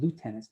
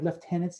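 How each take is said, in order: First: It is said the American way. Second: It is said the British and Canadian way. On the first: The speaker calls it wrong. "is an American term" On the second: The speaker calls it right. "in Canada and Britain and anywhere else you say this"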